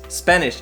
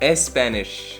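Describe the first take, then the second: First: The word starts directly with the S sound. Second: An extra E vowel comes before the S. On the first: The speaker calls it right. "It's Spanish" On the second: The speaker calls it wrong. "not Spanish"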